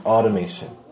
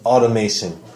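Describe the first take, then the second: The two takes are said the same way.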